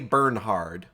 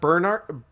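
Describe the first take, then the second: First: The name is said with an h sound. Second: The name is said without an h sound. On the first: "there's an H in there, so I like to say Bernhard" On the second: "I'm sure it's supposed to be pronounced Bernard"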